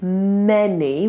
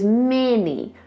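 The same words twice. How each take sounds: First: The first vowel is an open 'e' sound. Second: The first vowel is raised and nasal, near 'mini'. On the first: "Instead of many with an e" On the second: "she lifts it up to her nose ... so she goes many"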